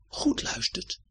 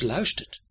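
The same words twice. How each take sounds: First: "goed luistert" breathed as a soft whisper. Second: Said in the usual way. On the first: Shown as a demonstration. Narrator hushing the children to listen, whisper. Repeat then whispered contrast.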